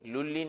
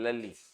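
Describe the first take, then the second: First: The name is said with a 'u' vowel. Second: The name is said with an 'a' vowel. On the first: The speaker calls it wrong. "लुल्ली नहीं" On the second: The speaker calls it right.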